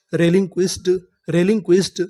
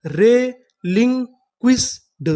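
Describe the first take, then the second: First: Said in the usual way. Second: Very slow, drawn-out reading; रेलिंक्विस्ड drawn out slowly, syllable by syllable; slow syllable demo. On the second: Shown as a demonstration. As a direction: stretch each syllable of रेलिंक्विस्ड. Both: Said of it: "तो हमारी पूरी meaning क्या बनी?".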